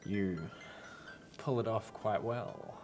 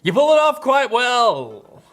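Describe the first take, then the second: First: The line is delivered in a suggestive, sultry tone. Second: The line is delivered in a plain, ordinary tone.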